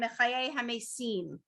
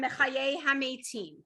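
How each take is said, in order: First: The final word is said with an 's' sound. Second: The final word is said with a 't' sound.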